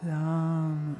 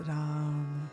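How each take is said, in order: First: It is said warmly, with love. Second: It is said warmly, with love.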